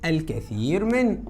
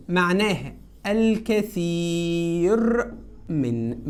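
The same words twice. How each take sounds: First: Class answer said slowly; slow choral-style answer; slow, drawn out. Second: Slow, stretched meaning; drawn-out teacher explanation. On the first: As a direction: let the class fill it in slowly. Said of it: "معناها ايه يا ولاد؟". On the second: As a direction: spell it out slowly for the class. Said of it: "ركز كده". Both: Shown as a demonstration.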